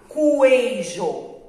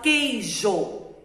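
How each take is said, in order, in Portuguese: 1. O u é pronunciado, então o início é kw. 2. O u é mudo, então o início é k simples. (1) "Eu não falo coeijo" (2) "Eu falo queijo"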